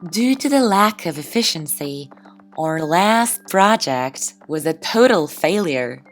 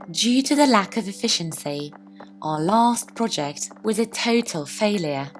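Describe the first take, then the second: First: It is spoken in an American accent. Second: It is spoken in a non-American accent.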